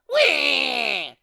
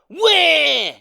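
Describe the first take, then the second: First: The cry is quieter. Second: The cry is louder.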